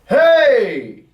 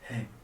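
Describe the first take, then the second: First: It is said loudly, with strong energy. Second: It is said quietly, with little energy. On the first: People cannot help but look and listen. The speaker calls it right. "a tonality that will start to soar over the room" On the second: Nobody will notice it. The speaker calls it wrong. "nobody's going to hear that"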